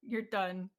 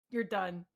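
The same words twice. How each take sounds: The two takes are said the same way.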